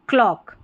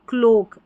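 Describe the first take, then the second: First: The vowel is an open 'aw' sound. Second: The vowel is a closed 'oh' sound. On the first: The speaker calls it right. "क्लॉक ऐसे" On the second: The speaker calls it wrong. "अगर मैं ओक पढ़ देती हूँ ... तो बिल्कुल उच्चारण गलत है"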